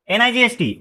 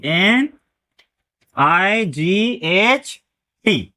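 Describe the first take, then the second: First: Said in the usual way. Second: Very slow letters with pauses between; one letter at a time, widely spaced; spelled out slowly. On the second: Shown as a demonstration. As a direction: draw out each letter of एन आई जी एच टी. Teacher respells it letter by letter.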